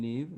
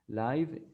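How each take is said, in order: First: The vowel sounds like the one in give. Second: The vowel sounds like the one in five. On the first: It means to be alive or to reside. "live means vivir" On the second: It means happening in real time. "Live is en vivo"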